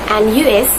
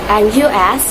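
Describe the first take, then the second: Both takes have the same delivery.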